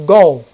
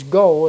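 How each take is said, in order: First: Jesus orders the demons out; commanding go. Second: Said in the usual way. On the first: Acted. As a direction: banish them with one word.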